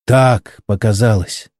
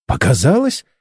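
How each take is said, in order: First: Said in the usual way. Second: Incredulous question, rising sharply at the end; indignant echo. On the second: A narrator's reading. Startled partner challenges the engineer's excuse, indignant. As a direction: throw the word back as a reproachful question. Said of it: "возмутилась Чен с укором".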